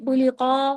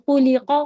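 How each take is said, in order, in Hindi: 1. स्वर को खींचकर लंबा किया जाता है। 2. स्वर छोटे होते हैं और जल्दी बोले जाते हैं।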